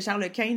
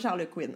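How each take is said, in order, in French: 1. Le dernier mot se prononce avec une voyelle nasale française. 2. Le dernier mot se prononce comme 'Quinn' en anglais. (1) "c'était Charles Quint" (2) "non pas Charles Quinn"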